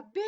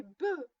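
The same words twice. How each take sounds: First: "B" said as the letter name bé, the wrong way. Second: "be" said with a short mute e, be not bé; correct syllable. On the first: The mother corrects Zozo's reading, "B" said bé. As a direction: say "B" as bé, the way the child got it wrong. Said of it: "On ne dit pas B". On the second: The mother corrects Zozo's reading, "be" with mute e. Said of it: "mais be". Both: Shown as a demonstration.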